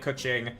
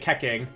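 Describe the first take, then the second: First: The second syllable does not start with K. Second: The second syllable starts with a K sound.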